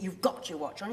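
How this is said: The stress falls on an unexpected word. The speaker calls it wrong. "it isn't"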